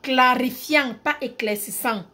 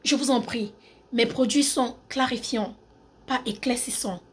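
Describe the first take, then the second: First: Emphatic Cameroonian accent demo. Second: Measured French accent demo; polite French accent, softening at the end. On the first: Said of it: "Je mets l'accent camerounais". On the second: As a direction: put on a French-from-France accent. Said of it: "Accent français". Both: Shown as a demonstration.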